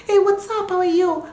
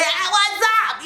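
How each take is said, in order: First: Light, high-pitched friendly hello; chatty, unstrained high greeting; talking voice. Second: High, strained mock yell; hammed-up yell at a high pitch; demo yell. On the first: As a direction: greet them in a high, easy voice. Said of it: "So when I'm talking". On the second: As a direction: pretend to yell the greeting. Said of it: "But if I'm yelling". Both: Shown as a demonstration.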